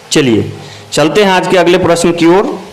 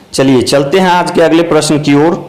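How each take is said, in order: Both takes have the same delivery.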